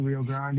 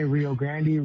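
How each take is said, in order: First: Grande as one syllable, GRAHND; alternative pronunciation. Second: Grande in two syllables, GRAN-dee; first pronunciation. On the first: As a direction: open ah in Grande, no final vowel. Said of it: "a lot of different ways to say". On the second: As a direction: end Grande on an ee sound. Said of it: "You can say". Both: Shown as a demonstration.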